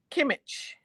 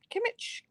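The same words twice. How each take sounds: First: Said in the usual way. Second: Kimmich much higher, softer and rising like a question; unsure pronunciation. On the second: Shown as a demonstration. Checking the designer's name aloud, unsure rising. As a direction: try Kimmich again with a doubtful rise. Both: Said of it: "Julia Kimmich".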